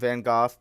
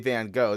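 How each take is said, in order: First: It is said the way the episode says it. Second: It is said with a typical American accent.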